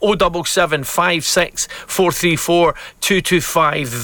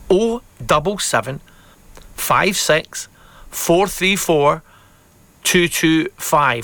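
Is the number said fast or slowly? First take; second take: fast; slowly. First: The number is said at normal, faster speed. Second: The number is said a little more slowly.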